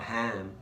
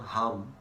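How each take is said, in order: First: It is said with an Australian a vowel. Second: It is said like the English word hum. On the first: "it's not ham, Australian pronunciation" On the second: "it's not H U M"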